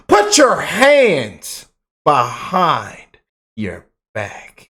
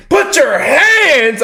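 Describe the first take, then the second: First: Slow, commanding arrest order with a little bass; hammed-up slow cop command with some confidence; mock police voice with bass. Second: Slow, high, loud barked command; hammed-up slow arrest command; mock police order. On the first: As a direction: play a confident cop cuffing him. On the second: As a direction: play a cop ordering an arrest. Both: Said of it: "with a little bass in my voice".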